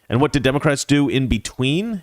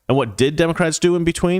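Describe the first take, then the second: First: The word "did" is not stressed. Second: The word "did" is stressed.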